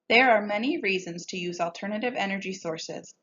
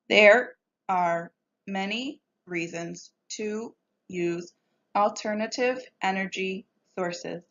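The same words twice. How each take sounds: First: The words flow together smoothly in phrases. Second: Each word is read separately, one by one. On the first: The speaker calls it right. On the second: The speaker calls it wrong.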